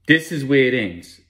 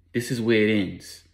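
First: THIS is where it ends, hit louder; emphatic repeat. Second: Said in the usual way. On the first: Acted. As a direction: drive home "This is where it ends" with more force.

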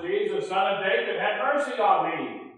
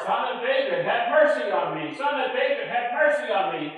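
First: A beggar calling out for mercy, raised voice; calling out, louder. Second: Higher, louder desperate cry; shouting all the more. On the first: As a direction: call for help from the roadside. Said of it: "this yelling coming up the top of his lungs". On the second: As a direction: cry out over the crowd, pleading. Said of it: "He shouted all the more". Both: Retold or imitated.

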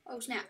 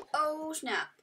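First: Said in the usual way. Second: Higher, stressed "Oh" in "Oh, snap"; excited. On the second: Real, not acted. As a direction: punch the "Oh" up high.

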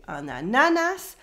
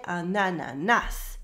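First: "ananas" with the middle syllable stressed; wrong middle stress. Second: "ananas" with stress on the final "nas"; last-syllable stress. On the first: Teacher showing what not to say, middle stress on "ananas". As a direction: lean on the second "na" in "ananas". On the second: Teacher showing the French way, final stress on "ananas". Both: Shown as a demonstration. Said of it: "We stress the last syllable".

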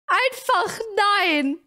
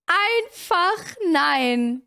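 First: Drawn-out no. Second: Slower resigned no. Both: Real, not acted.

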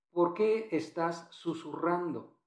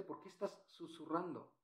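First: Said in the usual way. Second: Very soft, nearly whispered question; hushed demo. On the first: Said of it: "mira lo que dice". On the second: Shown as a demonstration. Teacher shows the class what whispering sounds like, hushed. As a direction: drop to a hush as if whispering. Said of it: "¿Ya viste?".

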